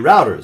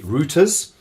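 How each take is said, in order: First: It uses the American pronunciation. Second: It uses the European pronunciation.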